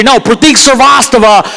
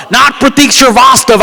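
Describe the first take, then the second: First: "Pratik Srivastava" said the wrong way, as at Indian events; mispronounced name. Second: "Pratik Srivastava" said the right way, falling; correct name. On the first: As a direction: garble "Pratik Srivastava" like a misreader. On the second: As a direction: give "Pratik Srivastava" its proper sound. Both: Shown as a demonstration.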